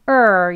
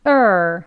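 No difference in how they are said.

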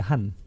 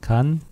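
First: The word begins with an h sound. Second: The word begins with a plain k sound. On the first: "이 간은 한으로도 발음돼" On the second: "요 세 가지로 다 이 왔다 갔다 해요"

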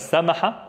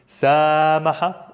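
First: The vowel is said short and quick. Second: The vowel is drawn out long.

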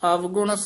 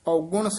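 First: The word begins with av, a v sound. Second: The word begins with au, no v sound. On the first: "ਪਹਿਲਾਂ ਅਵਗੁਣ ਆ ਗਿਆ ਵਾਵੇ ਨਾਲ" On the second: "ਹੁਣ ਔਗੁਣ ਊੜੇ ਨਾਲ ਧਿਆਨ ਨਾਲ ਉਚਾਰਨ ਕਰਨਾ ਹੈ"

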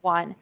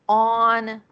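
First: The word begins with a w sound. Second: The word begins directly with a vowel. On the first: The speaker calls it right. "It's a wa sound" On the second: The speaker calls it wrong. "they tend to say this word as on"

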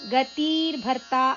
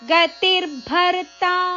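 First: The second syllable has a long vowel. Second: The second syllable has a short vowel. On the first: The speaker calls it wrong. "ಅಲ್ಲ" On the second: The speaker calls it right. "ತಿ ಅಕ್ಷರ ರಸ್ವ"

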